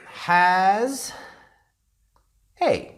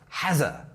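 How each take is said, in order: First: The two words are said separately. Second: The words run together with a buzzing z. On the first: The speaker calls it wrong. "of course we don't say it like that in sentence form" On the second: The speaker calls it right. "It's more like a z, has a, like hazard"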